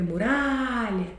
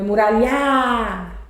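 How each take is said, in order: First: "muralha" with the middle RA drawn out, softer; stress on RA. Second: "muralhar" with the last syllable stretched long; wrong stress on LHA. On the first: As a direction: hold the RA of "muralha" and let LHA drop. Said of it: "É muralha". ("muralha" com o RA esticado) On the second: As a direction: misplace the stress, holding the final LHA of "muralhar". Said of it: "Não é muralhar". ("muralhar" com o final esticado, errado) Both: Shown as a demonstration.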